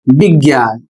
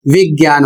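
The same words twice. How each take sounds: First: विज्ञान said with a b sound, "bigyan"; wrong pronunciation. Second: विज्ञान said with a clear v sound, "vigyan"; correct pronunciation. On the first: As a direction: start विज्ञान with b instead of v. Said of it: "जबकि विज्ञान नहीं होता है". (विज्ञान का गलत उच्चारण, ब से शुरू करके) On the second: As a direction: start विज्ञान with a clean v. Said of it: "यहाँ पर उच्चारण करना है वा का". (विज्ञान का सही उच्चारण, व की ध्वनि के साथ) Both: Shown as a demonstration.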